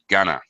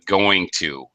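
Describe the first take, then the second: First: The words are reduced and run together. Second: Both words are said in full.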